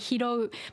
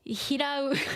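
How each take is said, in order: First: The word ends with an 'ou' sound. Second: The word ends with an 'au' sound. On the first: This is the standard form. "It's supposed to be hiro" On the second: This is a regional dialect form. "people living in Kyushu, uh, well, they will say hirau instead"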